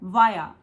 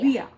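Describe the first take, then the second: First: It is said in an Indian English accent. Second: It is said in an American English accent. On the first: "जो हमारा Indian accent है उसमें हम बोलते हैं वाया" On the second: "लेकिन जो अमेरिकन एक्सेंट है उसमें हम बोलते हैं"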